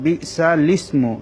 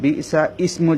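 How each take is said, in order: First: Slow "বিসালিসমু" with a clear l joined to is; correct pronunciation. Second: "বিসা ইসমু" missing the l before "ইসমু"; wrong pronunciation. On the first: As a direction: recite "বিসালিসমু" syllable by syllable, sounding lis. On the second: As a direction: say "বিসা ইসমু" with a bare vowel starting ismu. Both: Shown as a demonstration. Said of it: "যেন না হয়".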